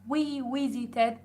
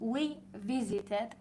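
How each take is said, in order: First: The W and V sounds are mixed up. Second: The W and V sounds are kept distinct. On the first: The speaker calls it wrong. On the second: The speaker calls it right.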